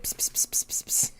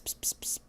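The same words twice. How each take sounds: First: Unvoiced cat-calling psst; soft psst psst to lure a cat; whispered psst. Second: Unvoiced psst psst; quiet hissed psst for the cat; whispered psst. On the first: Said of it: "Hellfire Fox said". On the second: Shown as a demonstration. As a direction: demo the cat-calling psst. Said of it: "if you do the psst".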